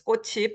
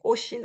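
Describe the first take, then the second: First: The middle consonant is an aspirated 'ch' sound. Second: The middle consonant is a softer 's' sound. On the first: "I read it as 꽃이" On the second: "you can read it with as she"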